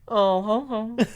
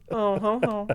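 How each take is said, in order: First: It is said in an impression of George. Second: It is said in the speaker's own voice.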